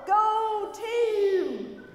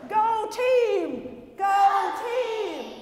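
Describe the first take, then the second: First: Loud "Go team!" yelled; cheer yell. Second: Loud high "Go team!" yelled; louder yell. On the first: Pastor yelling the cheer with the kids, loud. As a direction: shout "Go team!" as a rallying cry. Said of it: "that was pretty lame". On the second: Pastor pushing kids to yell harder, loud shout. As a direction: belt "Go team!" with more force. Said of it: "Let's try that again". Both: Acted.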